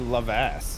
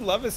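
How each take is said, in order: First: The name ends with an 'ass' sound. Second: The name ends with an 'iss' sound. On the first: The speaker calls it wrong. "the only alternative is to just say Lovass, which it's no good" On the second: The speaker calls it right. "I would say Lovis"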